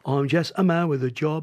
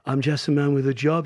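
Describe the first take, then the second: First: It is said in a working-class Cockney accent. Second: It is said in a plain, neutral accent. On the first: The song becomes social and political. "déjà ça y est, la chanson elle est sociale" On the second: The song stays ordinary, not social. "si tu dis normalement ça va"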